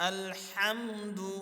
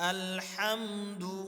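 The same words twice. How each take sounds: Both takes have the same delivery.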